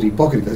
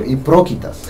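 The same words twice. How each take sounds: First: Said in the usual way. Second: Hipócritas said as hiprócritas, r moved after p; mispronounced hipócritas. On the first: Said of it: "ni siquiera podía decir hipócritas". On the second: Retold or imitated. Imitating a sister who couldn't say hipócritas. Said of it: "dijo hipócritas".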